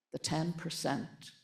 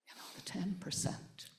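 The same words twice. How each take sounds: First: Said in the usual way. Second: Breathy hush, barely audible; whispered. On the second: Real, not acted. Whispering the ten percent to the audience at the peace talk. Repeats phrase for emphasis, hushed.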